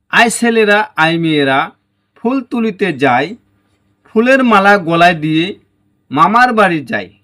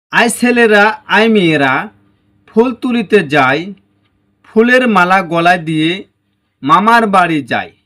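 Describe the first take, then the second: The two takes are said the same way.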